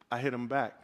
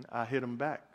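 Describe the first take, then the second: First: Said in the usual way. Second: Big brother. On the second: Acted. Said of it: "big brother".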